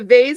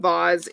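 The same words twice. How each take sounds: First: The word is said in a plain, everyday way. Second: The word is said in a posh, fancy way. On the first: The vase is cheap, from a thrift shop. "a vase if it's from, you know, um, the thrift shop" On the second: The vase is expensive crystal. "but a vase if it's crystal"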